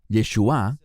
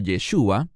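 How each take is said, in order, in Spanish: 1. El acento está en la sílaba final. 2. El acento no está en la sílaba final. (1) "con acento en la A" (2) "que es la manera hebrea de decir Jesús"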